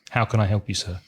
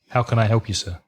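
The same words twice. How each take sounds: First: The voice stays flat with little pitch movement. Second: The same.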